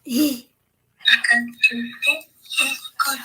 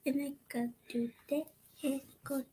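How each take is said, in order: First: Laughing. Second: Hushed secret whisper. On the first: Says it aloud laughing. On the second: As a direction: breathe it out fast. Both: Real, not acted.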